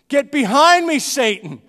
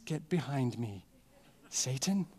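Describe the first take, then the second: First: It is said in a bold, forceful tone. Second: It is said in a soft, gentle tone. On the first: The speaker is firmly rebuking the listener. The speaker calls it right. "These are bold words from a bold and dangerous man" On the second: The speaker is being polite and mild. The speaker calls it wrong. "that's not how Jesus said this"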